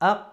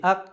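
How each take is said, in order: No difference in how they are said.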